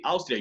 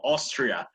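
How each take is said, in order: First: Austria starting with "aus"; Spanish pronunciation. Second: Austria starting with "os", R kept. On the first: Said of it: "You spell it the same as in Spanish". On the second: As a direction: say Austria as "os-tria". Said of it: "sonó hostia, pero no, Austria". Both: Shown as a demonstration.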